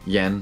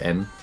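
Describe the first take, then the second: First: The word starts with a Y sound. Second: The word starts with a plain vowel. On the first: The speaker calls it wrong. "they don't say um, yen" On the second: The speaker calls it right. "they say en"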